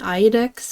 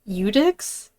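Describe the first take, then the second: First: The word begins with a pronounced I sound. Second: The word begins without any I sound. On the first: The speaker calls it wrong. "I was saying Iodex because I thought this was an I" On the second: The speaker calls it right. "I think the I is silent"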